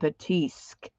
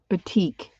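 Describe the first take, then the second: First: The word has an s sound before the k. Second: The word has no s sound before the k. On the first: The speaker calls it wrong. "I don't think I'm saying that right" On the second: The speaker calls it right. "I keep thinking there should be an S in there"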